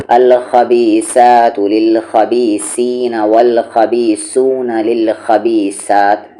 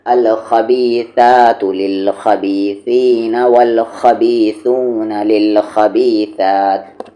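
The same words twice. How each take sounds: First: Slow recitation, plain hissing s throughout खबीसातु; wrong seen substitution. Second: Slow recitation, th as in think for स in खबीसातु; correct tha sound. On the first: Teacher showing the mistake, every स in खबीसातु read as seen. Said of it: "सबको सीन के सामने से पढ़ा". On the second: Teacher correcting the mistake, th for every स in खबीसातु. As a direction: draw out खबीसातु with tongue-to-teeth th. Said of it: "सही क्या है?". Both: Shown as a demonstration.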